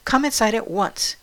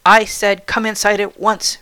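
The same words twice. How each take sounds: First: Stern, sharp command; barked order. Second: Louder, forceful stern command; insistent repeated order. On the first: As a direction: order the girl in briskly. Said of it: "she barked". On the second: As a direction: insist as if losing patience. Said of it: "repeated the woman". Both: A narrator's reading.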